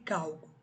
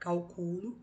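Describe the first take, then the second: First: The stress is on the first syllable. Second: The stress is on the second syllable. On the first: A calculation. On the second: I calculate.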